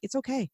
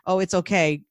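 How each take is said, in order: First: It sounds warm and sincere. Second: It sounds insincere and sarcastic.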